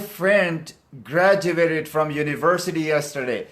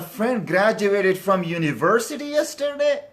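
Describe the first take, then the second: First: The voice falls at the end. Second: The voice rises at the end. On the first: It is a plain statement. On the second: It is a surprised yes-no question.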